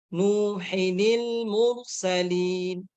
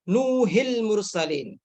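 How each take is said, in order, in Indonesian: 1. Ada suku kata 'ni' tambahan setelah 'Nuh'. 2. 'Nuh' langsung menyambung ke 'il' tanpa 'ni'. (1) "dibaca Nuhinil mursalin" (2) "Jangan dibaca Nuhil mursalin"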